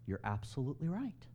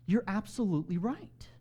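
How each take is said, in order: First: Quiet, tentative agreement with a rising end; soft concession. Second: "absolutely right" said fuller and higher, rising at the end; emphatic agreement. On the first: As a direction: concede it softly, as if taking it in. Acted reply, first softer take. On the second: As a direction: lift and stretch "right" in full voice. Acted reply, repeated more firmly. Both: Acted.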